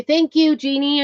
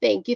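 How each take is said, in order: First: Higher and louder, delighted thank you; happy thanks to a viewer; excited thanks. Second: Said in the usual way. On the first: Real, not acted. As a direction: beam out the thanks to Jeannie.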